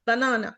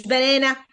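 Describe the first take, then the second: First: بنانا with weak uh, long middle A; schwa banana. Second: بنانا with a front "eh" sound in the middle, like "banena"; wrong banana vowel. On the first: Teacher modelling the correct banana, long A between two schwas. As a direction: reduce outer vowels of بنانا, stretch the middle. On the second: Teacher showing the banana to avoid, fronted middle vowel. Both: Shown as a demonstration. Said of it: "مش بنانا".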